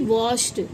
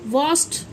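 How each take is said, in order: First: The ending is pronounced as a d sound. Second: The ending is pronounced as a t sound. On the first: The speaker calls it wrong. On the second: The speaker calls it right.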